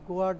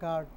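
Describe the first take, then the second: First: A w-like glide follows the g sound. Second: The g goes straight into the vowel. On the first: The speaker calls it wrong. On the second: The speaker calls it right.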